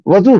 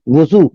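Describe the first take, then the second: First: The first vowel is an a sound. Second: The first vowel is a u sound. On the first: It names the water used for washing. "वाव के फतेह के साथ" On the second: It names the act of ritual washing. "वाव के जम्मे के साथ अगर पढ़ेंगे"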